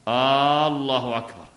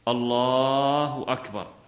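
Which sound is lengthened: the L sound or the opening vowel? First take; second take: opening vowel; L sound. First: The opening vowel of the first word is lengthened. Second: The L sound in the first word is lengthened. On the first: It turns the phrase into a question. The speaker calls it wrong. "لا إن مد الهمزة" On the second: It is a proper statement of the phrase. The speaker calls it right. "هذه مد اللام"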